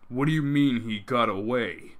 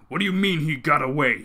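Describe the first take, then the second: First: It is said flatly, without much force. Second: It is shouted angrily, with force.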